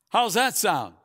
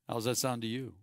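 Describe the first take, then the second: First: How's that sound? thrown out loud and high; loud rhetorical question. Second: Said in the usual way. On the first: Shown as a demonstration. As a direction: challenge the room loudly.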